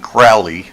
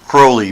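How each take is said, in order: First: The first vowel rhymes with 'foully'. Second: The first vowel rhymes with 'holy'. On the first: The speaker is being insulted. "Those who wish to treat me foully cause, call me Crowley" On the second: The speaker is being honored. "Call me Cole, Crowley because I'm holy"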